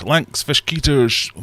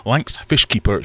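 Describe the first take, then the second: First: Fishkeepers fumbled into a drawn-out garble; tongue-tied slip. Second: Said in the usual way. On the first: Real, not acted. Streamer greeting a viewer in chat, tongue-tied on Fishkeepers. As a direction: stumble over Fishkeepers, stretching and slurring it. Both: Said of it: "I've already forgotten how to speak".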